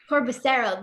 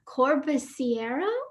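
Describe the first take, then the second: First: No extra 'ee' vowel is heard before the ending. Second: An extra 'ee' vowel is heard before the ending. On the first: The speaker calls it right. "You don't say the I" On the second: The speaker calls it wrong. "Did I say it right?"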